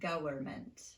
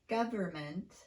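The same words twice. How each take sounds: First: The middle consonant is a W-like sound. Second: The middle consonant is a clear V sound. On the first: The speaker calls it wrong. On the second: The speaker calls it right.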